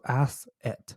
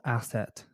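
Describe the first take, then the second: First: "Asset" said slowly as "ass" plus "et"; syllables separated. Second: Said in the usual way. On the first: Shown as a demonstration. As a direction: split "Asset" into two drawn-out parts, ass, et. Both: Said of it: "Literally ass and an E T".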